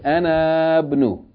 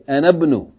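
First: The vowel before the b is held long. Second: The vowel before the b is cut short. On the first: The speaker calls it wrong. "You don't say Anabnu" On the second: The speaker calls it right. "You say Anabnu. ... as though it's a short vowel"

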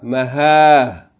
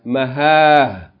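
Both takes have the same delivery.

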